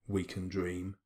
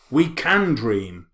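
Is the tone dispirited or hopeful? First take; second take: dispirited; hopeful. First: It is said in a flat, dispirited tone. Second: It is said in a brighter, hopeful tone. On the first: The writer expects nothing to happen. "I just read it in a kind of dispirited way" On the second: The writer hopes things could change. "But you can read it the other way"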